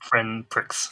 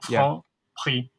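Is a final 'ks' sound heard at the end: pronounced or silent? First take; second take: pronounced; silent. First: The word ends with a clear ks sound. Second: The word ends without a final ks sound. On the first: The speaker calls it wrong. "It's not friend pricks" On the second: The speaker calls it right. "you don't pronounce the last letter... I didn't pronounce the N as well"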